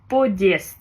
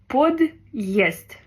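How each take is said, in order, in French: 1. Le préfixe s'enchaîne directement sur la voyelle. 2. Le préfixe est séparé de la voyelle. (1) "S'il n'avait pas de signe dur, on aurait dit" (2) "ici on dit bien подъезд. Donc on divise bien deux syllabes"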